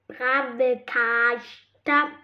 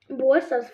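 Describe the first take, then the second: First: The first word is said as brave. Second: The first word is said as brawl. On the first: The speaker calls it wrong. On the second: The speaker calls it right.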